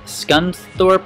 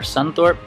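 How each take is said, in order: First: The C sound is pronounced after the S. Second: The C sound is left out after the S.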